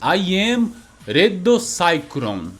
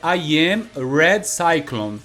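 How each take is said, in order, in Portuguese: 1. É dito com sotaque japonês. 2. É dito com sotaque inglês neutro. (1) "ele fala com sotaque japonês ali, né? Sai mais ou menos" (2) "Que em inglês é"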